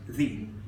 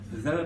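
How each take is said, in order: First: The vowel is a long ee sound. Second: The vowel is a short, weak uh sound. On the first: "when the next word begins with a vowel sound, the becomes the" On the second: "the becomes"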